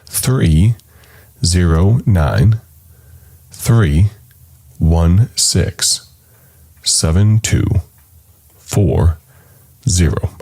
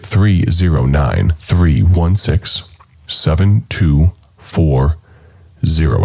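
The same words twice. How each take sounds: First: The number is said slowly. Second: The number is said fast.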